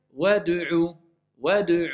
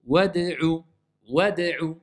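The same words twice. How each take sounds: First: WAD'U said with a U-like vowel on D, "wadu-'u"; mistaken damma on D. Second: WAD'U with D bounced neutrally, no U on it; neutral qalqala. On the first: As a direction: round the D of wad'u towards U too early. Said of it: "comme si je lui mets une dhamma". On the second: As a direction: release the D of Wad'u cleanly, then say the U. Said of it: "mais je la laisse neutre". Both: Shown as a demonstration.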